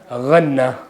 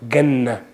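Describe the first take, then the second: First: It starts with a throaty gh sound. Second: It starts with a hard English g sound. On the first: "Not ghanna" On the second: "With the g, English G"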